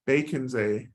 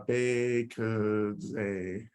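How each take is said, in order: First: Said in the usual way. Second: Bacon's a stretched very slowly, syllable by syllable; drawn-out pronunciation. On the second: Shown as a demonstration. Teacher showing how the mantra sounds, Bacon's a drawn out slowly. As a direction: sound out "Bacon's a" with long, held vowels. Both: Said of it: "right pronunciation to any of this".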